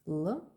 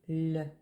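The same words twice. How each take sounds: First: The L sound is hard. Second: The L sound is soft. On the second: "L became L"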